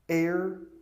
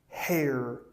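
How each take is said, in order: First: The h at the start is silent. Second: The h at the start is pronounced. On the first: The speaker calls it right. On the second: The speaker calls it wrong. "Don't say"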